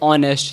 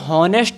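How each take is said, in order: First: The word begins directly with a vowel. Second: The word begins with an h sound. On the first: The speaker calls it right. "यहाँ पर जो एच है वो silent रहती है" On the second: The speaker calls it wrong. "नहीं बोलेंगे इसे"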